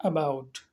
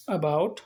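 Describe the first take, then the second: First: "About" said low and soft with a falling end, no jerk; a quiet, smooth "About" with no push; soft about demo. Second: "about" said smoothly, no sharp push on the vowel; about without a jerk. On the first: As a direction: let "About" fall away gently. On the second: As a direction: glide through "about" gently, no jerk. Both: Shown as a demonstration. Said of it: "about को उतने झटके के साथ हम नहीं बोलेंगे".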